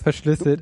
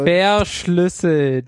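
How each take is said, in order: First: The word is said in a plain, sincere tone. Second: The word is said in an ironic, air-quoted tone. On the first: The passwords are taken to be truly encrypted. The speaker calls it wrong. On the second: The passwords are not really encrypted at all. The speaker calls it right.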